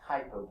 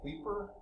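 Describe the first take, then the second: First: The first syllable has a long 'eye' vowel. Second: The first syllable has an 'ee' vowel. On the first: "I think the right pronunciation is Kuiper Belt" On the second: "an I doesn't have a long I sound, it has a sort of a short E sound"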